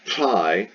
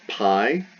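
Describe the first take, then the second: First: The p is said with a strong puff of breath. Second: The p is said with very little breath. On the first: "a lot of air should hit your hand" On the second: "very little air hits your hand"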